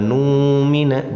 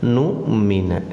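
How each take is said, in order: First: The first vowel is stretched out long. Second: The first vowel stops sharply with a catch. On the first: The speaker calls it wrong. "Jangan numina" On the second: The speaker calls it right. "Dijeda saja ini ya"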